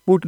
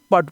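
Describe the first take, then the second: First: पुट with a short "oo", as in "foot"; पुट का उच्चारण. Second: पट with a short "a", rhyming with "cut"; पट का उच्चारण. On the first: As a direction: sound the u in पुट. (पुट में उ की ध्वनि) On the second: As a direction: say पट without any "oo" sound. (पट में छोटा अ) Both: Shown as a demonstration. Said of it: "पुट नहीं पट पढ़ेंगे".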